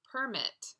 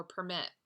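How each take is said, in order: First: Permit stressed on the first syllable, PER-mit, pitched higher; noun stress PERmit. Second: Permit stressed on the second syllable, per-MIT; verb stress perMIT. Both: Shown as a demonstration. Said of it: "or permit".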